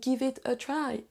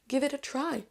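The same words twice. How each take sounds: First: Small pauses separate the words. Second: The words are linked smoothly together. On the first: The speaker calls it wrong. "en vous faisant des petites pauses au milieu" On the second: The speaker calls it right. "lier les mots entre eux"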